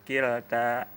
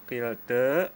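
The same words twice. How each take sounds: First: The final vowel is a plain open 'a'. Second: The final vowel leans slightly toward an 'e'. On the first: "baca fathah biasa" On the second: "dibaca dengan qilta taklil"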